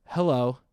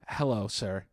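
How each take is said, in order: First: Loud, clipped "Hello." to shut him up; sharp cutting-off hello. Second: Polite "Hello, sir.". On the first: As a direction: bark it to stop him mid-sentence. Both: Retold or imitated. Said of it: "she fucking cuts me off with this".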